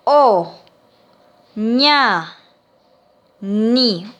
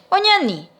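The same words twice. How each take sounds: First: "O, ña, ni" with a long pause after each syllable; syllable-by-syllable dictation. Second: Said in the usual way. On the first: Shown as a demonstration. Teacher dictating to pupils, "O, ña, ni" syllable by syllable. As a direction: dictate "O, ña, ni" one separated syllable at a time. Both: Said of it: "Entonces le dicto".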